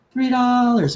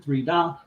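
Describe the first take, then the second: First: Higher and louder, announcing the bid; auction call. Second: Said in the usual way. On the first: Shown as a demonstration. Announcing Jim's bid to the viewers, called out loud.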